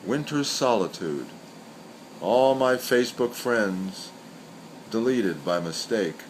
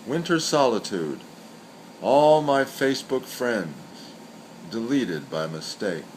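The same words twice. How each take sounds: The two takes are said the same way.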